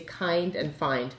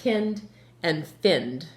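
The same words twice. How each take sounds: First: The vowel i is long, as in eye. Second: The vowel i is short, as in kin. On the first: The speaker calls it right. "You say kind and find" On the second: The speaker calls it wrong. "the way you should say it is kind and find, right? But that's not how you say it"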